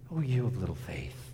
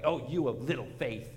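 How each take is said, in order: First: It is said softly, as a gentle rebuke. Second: It is said angrily, full of indignation. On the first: It is a mild, loving correction. The speaker calls it right. "just as a gentle rebuke" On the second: It is an indignant scolding. The speaker calls it wrong. "Very angry and full of indignation"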